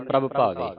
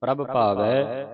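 First: ਪ੍ਰਭ ਭਾਵੇ with ਭਾਵੇ ending in e; common misreading. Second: ਪ੍ਰਭ ਭਾਵੈ with ਭਾਵੈ ending in "ai"; double-lanv sound. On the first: Teacher showing how congregations read it, ਭਾਵੇ with e ending. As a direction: say ਭਾਵੇ with a single-lanv "e". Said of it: "ਸੰਗਤਾਂ ਕਈ ਪੜ ਜਾਂਦੀਆਂ". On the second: Teacher modelling the two-lanv sound, ਭਾਵੈ with ai ending. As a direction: let ਭਾਵੈ end on open ai. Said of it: "ਦੋ ਦਲਾਵਾਂ ਦੀ ਆਵਾਜ਼". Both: Shown as a demonstration.

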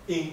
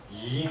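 First: イン with a plain vowel onset, for dog; イン as in Okinawan for dog. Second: イン with a y glide before the i, like yin; イン opened on a drawn y sound; Okinawan yi sound. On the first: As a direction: say イン starting straight on the vowel i. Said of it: "犬は、". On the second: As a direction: say イン as "yin", for bond. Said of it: "縁結びの縁は、". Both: Shown as a demonstration.

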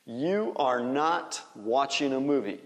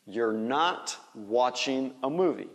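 First: "You are" as two distinct words; full form. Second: "You're" said as one syllable, like "yor"; contracted form. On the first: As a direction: keep "You are" uncontracted before "not". (forma completa, "You are" em duas palavras) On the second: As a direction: blend "You're" into a single word before "not". (forma contraída, "You're" numa sílaba só) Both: Shown as a demonstration. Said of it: "Faz a contração".

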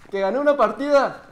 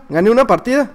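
First: High call to someone out of the room; calling out to mamá. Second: Said in the usual way. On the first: Real, not acted. Child telling mamá of a win, calling out. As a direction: call the news out to your mother. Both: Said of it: "le grito a mamá".

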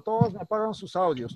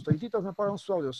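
First: Said in the usual way. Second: Fast, insistent repeat of todititos; quick nagging repeat to the class; hurried repeat. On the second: Real, not acted. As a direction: rattle it off again quickly.

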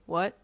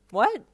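First: Deadpan one-word question. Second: High, loud startled question; startled yelp. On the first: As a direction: ask it without any reaction. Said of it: "he said, deadpanning". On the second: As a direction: yelp it in alarm. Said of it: "you yelped". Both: A narrator's reading.

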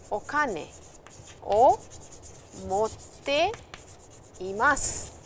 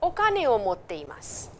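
First: Each word set apart with long pauses; slow dictation pace for learners; word by word, slowly. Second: Said in the usual way. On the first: Shown as a demonstration. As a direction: spell out Okane, o, motte, imasu one at a time with gaps. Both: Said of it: "You can also say, for example".

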